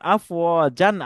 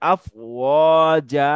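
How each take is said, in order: First: The word ends with an n sound. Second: The word ends with a long a vowel. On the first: The reader continues without stopping. "এখানে যেমন আফওয়াজান আছে" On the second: The reader stops at the end of the verse. "আলিফ টান হবে, মাদ হয়ে যাবে, তখন হবে আফওয়াজা"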